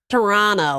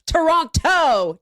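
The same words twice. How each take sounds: First: The second T sound is dropped. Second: The second T sound is pronounced. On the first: This is how the locals say it. "you're not supposed to say the second T" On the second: This is said to spite the locals. "There's two frickin' T's in there. I'm saying them both"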